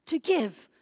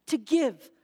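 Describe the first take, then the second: No difference in how they are said.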